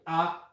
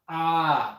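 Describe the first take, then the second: First: The vowel is held very briefly. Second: The vowel is drawn out longer. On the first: "the first sound is very short" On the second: "the second one is that we're gonna drag it a little longer"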